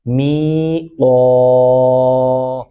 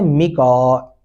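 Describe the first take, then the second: First: The final vowel is held long. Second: The final vowel is cut short. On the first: The speaker calls it right. "दोबारा भी आवाज़ के अंदर आप उसी तरह खींचेंगे" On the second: The speaker calls it wrong. "जो गलत है, कतअन गलत है"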